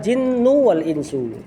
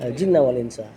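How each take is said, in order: First: Both words end with a 'u' vowel. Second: Both words end with an 'a' vowel. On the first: Jinn and humans are named as the subject. "Kalau dibaca dhammah" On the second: Jinn and humans are named as the object. "Kalau dibaca mansub"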